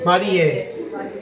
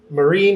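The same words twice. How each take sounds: First: The name is said with Japanese pronunciation. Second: The name is said with English pronunciation. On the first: The speaker calls it right. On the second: The speaker calls it wrong.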